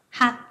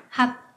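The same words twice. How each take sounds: Both takes have the same delivery.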